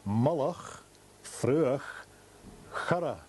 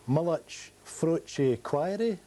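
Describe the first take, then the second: First: The name is said with native Gaelic sounds. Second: The name is said with anglicized English sounds. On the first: The speaker calls it right. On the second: The speaker calls it wrong. "No, no"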